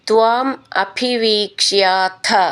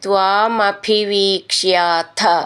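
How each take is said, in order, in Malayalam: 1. രണ്ട് വാക്കുകളും വെവ്വേറെയാണ് പറയുന്നത്. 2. രണ്ട് വാക്കുകളും ചേർത്ത് ഒന്നാക്കിയാണ് പറയുന്നത്.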